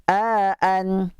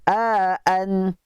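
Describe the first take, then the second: The two takes are said the same way.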